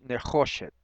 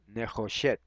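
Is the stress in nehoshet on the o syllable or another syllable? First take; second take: o syllable; another syllable. First: The stress is on the o syllable. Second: The stress is not on the o syllable. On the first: The speaker calls it right. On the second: The speaker calls it wrong.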